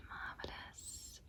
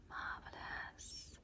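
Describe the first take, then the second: No difference in how they are said.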